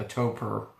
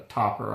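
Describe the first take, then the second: First: Toper with a long O; "Toper" rhyming with "roper"; alternative pronunciation. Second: Topper with a short O; "Topper" rhyming with "hopper"; alternative pronunciation. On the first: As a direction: say "Toper" with an O as in "hope". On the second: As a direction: say "Topper" with the vowel of "top". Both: Shown as a demonstration. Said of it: "not sure how it's pronounced".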